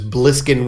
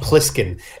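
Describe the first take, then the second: First: The name begins with a B sound. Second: The name begins with a P sound. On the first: The speaker calls it wrong. "with a B" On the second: The speaker calls it right. "not Pliskin"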